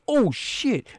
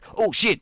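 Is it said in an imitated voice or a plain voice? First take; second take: plain; imitated. First: It is said in the speaker's plain own voice. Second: It is said in a put-on imitation voice. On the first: The speaker calls it wrong. "No, wait" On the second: The speaker calls it right. "What's Mr. T voice?"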